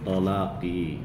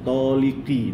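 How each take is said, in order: First: The middle vowel is a. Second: The middle vowel is i. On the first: The speaker calls it right. "Yang betul apa?" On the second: The speaker calls it wrong. "ini tulisannya"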